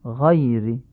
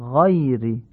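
No difference in how they are said.

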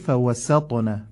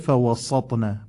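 First: The s sound is light and clearly pronounced. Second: The s sound is heavy, pulled toward the t. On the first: The speaker calls it right. "باید بشه فوسطن، قشنگ حرف سین تلفظ بشه" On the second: The speaker calls it wrong. "نشه فوسطن"

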